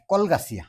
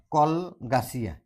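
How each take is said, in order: First: Said in the usual way. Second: কলগাছিয়া slowly split as কল, গাছিয়া; syllable by syllable. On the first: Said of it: "directly কলগাছিয়া যদি উচ্চাৰণ". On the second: Shown as a demonstration. Teacher giving an Assamese syllable example, slow and broken up. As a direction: draw out কলগাছিয়া with a clear break inside. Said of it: "উচ্চাৰণ কৰোঁতে problem হয়".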